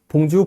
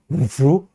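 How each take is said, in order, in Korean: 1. 프랑스 억양 없이 평범하게 말합니다. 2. 프랑스 억양이 섞인 느낌으로 말합니다. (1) "그냥 봉주, 봉주 하면은 프랑스어 같은 느낌이 좀 안 들어요" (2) "이렇게 하면은 약간 좀 프랑스어 같은 느낌이 들죠"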